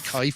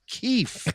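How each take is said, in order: First: The vowel sounds like the 'eye' in 'kite'. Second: The vowel sounds like the 'ee' in 'keep'. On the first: The speaker calls it wrong. "It's not Kaif" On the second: The speaker calls it right. "it was Keef"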